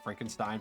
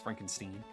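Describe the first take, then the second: First: The last syllable sounds like 'stine'. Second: The last syllable sounds like 'steen'.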